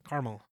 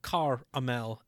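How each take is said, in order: First: Caramel quickly run together as CAR-mul; caramel said fast. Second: Caramel as CAR-uh-mel, spaced out; caramel taken apart. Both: Shown as a demonstration. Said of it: "And you say it fast".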